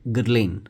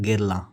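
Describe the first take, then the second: First: The final n sound is clearly pronounced. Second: The final n sound is left silent. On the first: The speaker calls it wrong. "Indian English में या British English में अगर इसको प्रोनाउंस करेंगे तो वो कुछ ऐसा होगा" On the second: The speaker calls it right. "French में प्रोनाउंसिएशन देखेंगे तो ये हो जाएगा"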